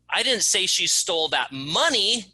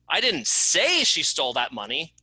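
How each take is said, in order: First: The word "money" is stressed. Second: The word "say" is stressed. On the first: Something other than money was stolen. "It wasn't the money she stole, it was that box of pencils" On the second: It was written rather than spoken. "I didn't say it, I wrote it"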